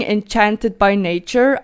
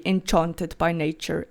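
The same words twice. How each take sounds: First: "enchanted" with the short a of cat; English-style enchanted. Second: "enchanted" with a broad ah as in father; Afrikaans-style enchanted. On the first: Vlogger showing viewers what she avoids in Afrikaans, English-style pronunciation. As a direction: say en-CHAN-ted for "enchanted". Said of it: "instead of saying enchanted by nature". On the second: Vlogger explaining her home-language habit, Afrikaans-style pronunciation. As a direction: say en-CHAHN-ted for "enchanted". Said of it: "I would actually say enchanted by nature in Afrikaans". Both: Shown as a demonstration.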